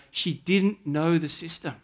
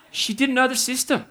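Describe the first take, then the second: First: Said in the usual way. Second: Know lifted much higher and stressed; repeating the line with a high stressed know. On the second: Shown as a demonstration. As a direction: sing out know as the punchline.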